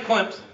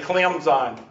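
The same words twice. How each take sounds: First: The middle has a P-like sound, Clemp-son. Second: The middle has a Z-like sound, Clem-zun. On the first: The traditional local way of saying it. "That's the way everybody says it for hundreds of years" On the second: The way national broadcasters say it. "they don't say it with a P. ... They say Clemson"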